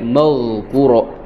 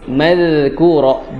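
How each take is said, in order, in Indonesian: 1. Konsonannya diucapkan tebal dan berat. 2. Konsonannya diucapkan tipis dan ringan. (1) "jangan sampai madhkura" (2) "Zal, dia juga tipis"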